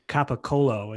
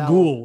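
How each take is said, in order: First: It is said the standard Italian way, final vowel kept. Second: It is said Italian-American style, final vowel dropped.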